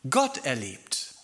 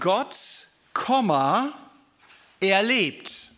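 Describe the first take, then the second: First: The words run together with no pause. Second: A short pause follows the first word. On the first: God can be experienced in everyday life. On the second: God is alive, not dead.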